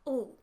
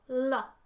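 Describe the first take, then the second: First: The consonant sound is held with no vowel. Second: A short vowel follows the consonant sound. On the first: The speaker calls it right. "which should be" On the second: The speaker calls it wrong. "A schwa is when you use a at the end of a sound that doesn't require it"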